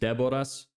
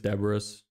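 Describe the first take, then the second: First: The name has its native, non-English pronunciation. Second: The name has an English-style pronunciation. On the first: "my name is Deboras" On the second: "in English, I just say it as Deboras"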